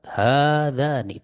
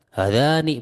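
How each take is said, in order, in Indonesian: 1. Dua vokal pertama dibaca panjang. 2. Dua vokal pertama dibaca pendek. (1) "Ha di sini dua harokat. Za juga dua harokat"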